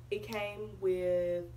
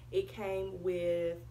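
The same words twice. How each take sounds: The two takes are said the same way.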